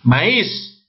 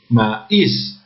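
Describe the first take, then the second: First: Said in the usual way. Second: "Maíz" broken into ma, íz; "Maíz" in two detached syllables; maíz split up. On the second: Shown as a demonstration. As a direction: separate the a from the í in "Maíz". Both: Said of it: "Aquí me olvidé de separar".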